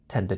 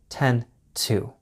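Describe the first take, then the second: First: The 'to' starts with a quick d sound. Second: The 'to' starts with a sharp t sound. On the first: An hour follows the expression. "the to sound becomes more of a quick d sound" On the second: The hour is understood and left out. "we keep the sharp t, t sound"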